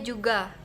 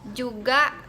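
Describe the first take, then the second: First: No extra sound is added to the word. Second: An extra sound is added to the word. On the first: The speaker calls it right. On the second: The speaker calls it wrong. "Yang kedua"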